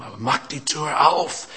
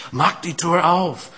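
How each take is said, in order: First: Said in the usual way. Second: "mach die Tür auf" slowed, louder and higher, "auf" leaned on; emphatic repeat. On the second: Shown as a demonstration. Preacher pleading with listeners to open up, slow and emphatic.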